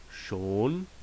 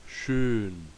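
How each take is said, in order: First: Schon, a plain round long O. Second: Schön, rounded lips with an E tongue; schön with Ö umlaut. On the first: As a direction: say schon with a clear long O, no umlaut. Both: Shown as a demonstration.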